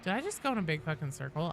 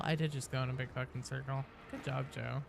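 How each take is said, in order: First: Said in the usual way. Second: Quieter, deflated admission; resigned self-mockery. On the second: Real, not acted. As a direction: sigh it out at yourself.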